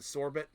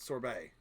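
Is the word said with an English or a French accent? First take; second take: English; French. First: It is said with a plain English accent. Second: It is said with a French accent. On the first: "Instead of saying sorbet" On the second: "to make it a French accent"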